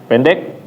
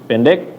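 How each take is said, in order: The two takes are said the same way.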